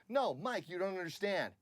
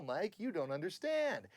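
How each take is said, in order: First: NO high, "understand" cut shorter; quicker take, little stretch on "understand"; actor's echoed line reading. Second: "understand" stretched out high; sing-song lift, long last syllable on "understand"; musical line reading. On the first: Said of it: "the guy will go". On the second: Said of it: "if you're musical". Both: Shown as a demonstration.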